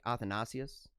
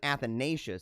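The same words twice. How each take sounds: First: The name carries the Greek stress pattern. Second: The name carries the usual English stress. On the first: "It's actually like Athanasius. And so there's there's a way that they stress that" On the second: "we call ours an Athanasius"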